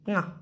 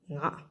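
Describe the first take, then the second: First: The syllable is said with a high tone. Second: The syllable is said with a low tone. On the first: The speaker calls it right. "high tone, it will be Nga" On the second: The speaker calls it wrong. "not Nga"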